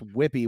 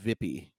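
First: The name is said with English pronunciation. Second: The name is said with Polish pronunciation.

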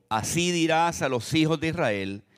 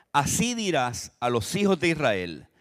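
No difference in how they are said.

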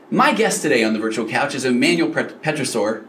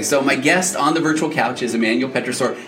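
First: The voice sounds lively and excited. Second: The voice sounds flat and defeated.

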